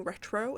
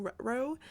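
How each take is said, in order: First: Said in the usual way. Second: "retro" with the t dropped, like "reh-ro"; mispronounced retro. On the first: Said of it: "because of my accent and stuff". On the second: Shown as a demonstration. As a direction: slur "retro" into "reh-ro", losing the middle t. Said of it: "it didn't end up being retro".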